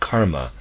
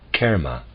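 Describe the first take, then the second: First: The first vowel is a broad open ah. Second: The first vowel is a modified vowel. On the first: The speaker calls it wrong. "with broad ah sound. This is incorrect" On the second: The speaker calls it right. "should be pronounced karma with modified vowel sound"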